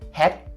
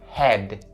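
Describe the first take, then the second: First: The word ends with a voiceless T sound. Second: The word ends with a voiced D sound. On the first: The speaker calls it wrong. "you shouldn't turn it into the T sound" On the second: The speaker calls it right. "Nope, it's head"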